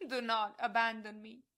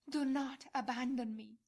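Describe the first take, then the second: First: Loud plea. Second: Said in the usual way. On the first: Acted. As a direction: do not abandon me cried loud and raised. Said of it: "cry out loudly to all hearts". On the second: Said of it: "This cry will be continuous to your hearts".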